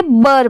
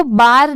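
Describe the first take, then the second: First: बर with a short schwa, like 'bur'; correct short vowel. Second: बार with a long open 'aa' vowel; mispronounced बार. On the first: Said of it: "बर पढ़ेंगे". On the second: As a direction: stretch the vowel in बार to 'baar'. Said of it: "B A R को बार नहीं पढ़ेंगे". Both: Shown as a demonstration.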